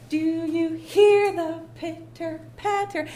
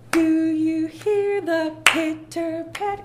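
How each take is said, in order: First: Sung slowly, "hear" held, falling at the end; other accent choice. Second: "hear" sung slow and louder, rising at the end; stress on hear. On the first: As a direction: sing the other way, dropping at the end. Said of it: "is it". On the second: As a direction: sing it slowly, leaning on "hear". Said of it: "Or you can say, is it". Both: Shown as a demonstration.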